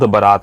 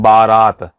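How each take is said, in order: First: The first vowel is a short a. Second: The first vowel is a long aa. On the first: The speaker calls it right. "ब में अ छोटा अ होता है" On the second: The speaker calls it wrong. "इसको अशुद्ध बोलते हैं"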